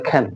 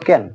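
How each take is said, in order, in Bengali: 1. প্রথম ধ্বনিতে বাতাসের একটি জোরালো ফুঁ আছে। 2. প্রথম ধ্বনিতে বাতাসের কোনো ফুঁ নেই। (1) "এর উচ্চারণ হলো খ্যান" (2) "আমরা বলতাম ক্যান"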